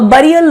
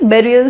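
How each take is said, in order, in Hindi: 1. पहला स्वर 'bur' जैसा लगता है। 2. पहला स्वर 'bear' जैसा लगता है।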